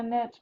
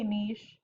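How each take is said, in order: First: "niche" said as "neesh", long ee and a soft sh; alternate pronunciation. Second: "niche" said as "nitch", rhyming with itch; careful pronunciation. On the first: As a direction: say "niche" like "neesh", rhyming with quiche. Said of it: "that's also a way that's said". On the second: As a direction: say "niche" like "nitch", short i and a tch ending. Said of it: "the way I learned it sounds so terrible". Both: Shown as a demonstration.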